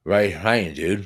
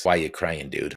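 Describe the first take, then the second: First: 'Right, crying, dude' with the W and Y sounds swallowed, mushy and slurred; a hint of slurred prisoner voice; imitating slurred speech. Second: Said in the usual way. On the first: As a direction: mimic the prisoner's stroke-slurred question. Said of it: "in his slurred speech". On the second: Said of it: "the question that he was asking me was".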